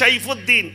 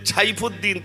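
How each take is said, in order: First: The name begins with a plain s sound. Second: The name begins with an aspirated ch sound. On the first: "দন্ত স হয়েছে" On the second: "ছ"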